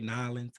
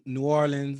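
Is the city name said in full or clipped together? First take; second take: clipped; full. First: The name is squeezed into two quick syllables. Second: The name is said in full, syllable by syllable.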